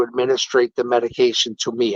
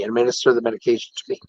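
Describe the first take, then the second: First: Says "administrate" instead of "administer", then corrects it; wrong word administrate. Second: "administer" said right, a bit faster as a quick fix; corrected word administer. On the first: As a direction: trip on "administrate", the wrong form. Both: Real, not acted.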